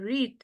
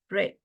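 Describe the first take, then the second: First: It is pronounced as the present-tense form. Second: It is pronounced as the past-tense form. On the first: The action happens now. "En presente va a ser read" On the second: The action already happened. "en pasado va a ser read"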